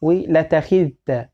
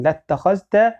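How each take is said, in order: First: ولتخذت slowly, short a, no long vowel after the lam; slow, clear ولتخذت without alif; short reading, slow. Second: لاتخذت with long a and a rising end; لاتخذت, long lam-alif, rising; long reading. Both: Shown as a demonstration. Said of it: "حتى تشمل القراءتين".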